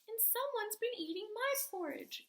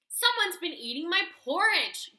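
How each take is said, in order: First: It is said in a tiny, small growl. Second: It is said in a huge, deep growl.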